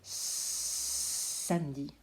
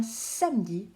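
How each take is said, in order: First: "Samedi" starting with a very long hissed "Sssss"; "Samedi", very slow, first consonant held; exaggerated first sound. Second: Said in the usual way. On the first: Shown as a demonstration. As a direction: hiss like a little snake before finishing "Samedi". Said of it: "On dirait un petit serpent". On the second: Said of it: "on entend le s".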